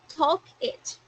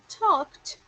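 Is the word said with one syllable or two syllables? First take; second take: two; one. First: The ending is an extra syllable. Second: The ending is a single t sound. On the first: It sounds like the verb talk with the object it. The speaker calls it wrong. "we don't create an extra syllable as in talk it" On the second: It is the past form of the verb. The speaker calls it right. "instead of saying talked"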